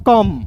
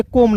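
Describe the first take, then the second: First: कम said short, like "kum"; correct pronunciation. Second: कोम with a long "o", the wrong reading; wrong pronunciation. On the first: Teacher showing students the right reading, कम short. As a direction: say कम with a short, clipped vowel. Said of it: "इसे कोम नहीं पढ़ेंगे". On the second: Teacher warning students off a mistake, कोम with long "o". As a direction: say कोम drawn out on the "o". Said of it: "कोम नहीं पढ़ेंगे". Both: Shown as a demonstration.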